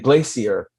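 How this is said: It is said with a British accent.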